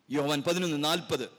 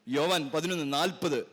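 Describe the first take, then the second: No difference in how they are said.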